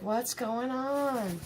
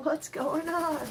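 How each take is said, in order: First: Slow, softer, dazed ferret voice; voicing the ferret. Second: Softer put-on ferret voice, a touch higher; a light puzzled pet voice; voicing the ferret. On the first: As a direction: drag it out like a puzzled ferret. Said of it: "Jack's hanging out like". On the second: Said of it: "Jack's just laying there like".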